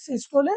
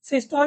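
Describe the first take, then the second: First: The word ends with an extra final vowel sound. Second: The word ends without a final vowel sound. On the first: "असल pronunciation क्या होता है" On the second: "सिस्टोल डिस्टोल भी बोल सकते हो"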